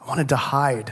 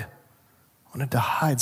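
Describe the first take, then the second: First: Said in the usual way. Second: Hushed and slow; Adam admits he hid, softly and slowly; softer, slow repeat. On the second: Acted. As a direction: let it sink in quietly. Adam's answer repeated.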